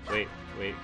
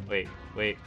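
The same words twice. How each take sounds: The two takes are said the same way.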